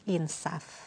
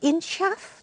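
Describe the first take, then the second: First: The middle consonant is a plain s sound. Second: The middle consonant is an sh-like sy sound. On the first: The speaker calls it right. "yang baku tanpa y" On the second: The speaker calls it wrong. "bukan insyaf"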